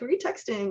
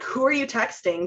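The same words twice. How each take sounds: First: It sounds light, curious and friendly. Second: It sounds demanding and controlling.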